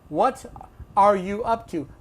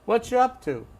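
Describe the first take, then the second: First: Every word, including 'are', is fully pronounced. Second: The word 'are' is dropped in a reduced form. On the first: The speaker calls it wrong. "No one says that" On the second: The speaker calls it right. "this is how you're going to hear it"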